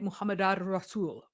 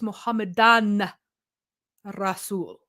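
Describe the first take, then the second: First: The first word ends blended into the r. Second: The first word ends with a clear n. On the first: This is the everyday modern form. "in modern Arabic, it would be likely to say" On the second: This is the formal archaic form. "because it's like a fancy archaic language"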